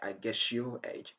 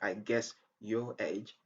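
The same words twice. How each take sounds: First: The s and y merge into sh. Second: The s and y sounds stay separate. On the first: The speaker calls it right. "you could just say ... a native and a natural pronunciation" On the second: The speaker calls it wrong. "Instead of saying"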